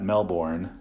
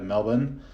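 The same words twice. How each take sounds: First: Melbourne is said in a non-Australian way. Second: Melbourne is said the way Australians say it. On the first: The speaker calls it wrong. "not Melbourne" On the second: The speaker calls it right. "that proper pronunciation of Melbourne"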